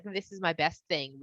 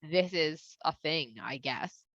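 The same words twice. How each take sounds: First: Proud offering. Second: Indifferent shrug. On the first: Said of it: "If somebody's like". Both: Retold or imitated.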